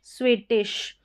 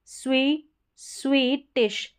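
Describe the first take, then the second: First: स्वीटिश said as one word, "sweetish"; "swee-tish" in स्वीटिश without a long break; joined-up word. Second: स्वीटिश slowly split as "swee, tish"; syllable-by-syllable demo. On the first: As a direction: run स्वीटिश together. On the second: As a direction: say स्वीट alone, then add "ish". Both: Shown as a demonstration. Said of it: "इसको स्व करके pronounce करना".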